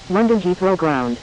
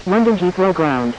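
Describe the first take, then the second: No difference in how they are said.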